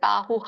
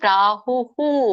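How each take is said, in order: First: The final breath is echoed with an 'a' vowel. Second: The final breath is echoed with a 'u' vowel. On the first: The speaker calls it wrong. "ಕೆಲವೊಬ್ರು ಹಾಗೆ ಹೇಳ್ತಾರೆ" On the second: The speaker calls it right. "ಹಾಗಾಗಿ ಪ್ರಾಹುಹು ಅಂತ ಹೇಳ್ಬೇಕು"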